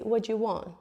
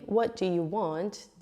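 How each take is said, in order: First: 'Do' is shortened and linked into 'you'. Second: Each word is said fully and separately. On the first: "if you shorten that, you can even say, ... I link the duh with the you" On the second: "instead of doing"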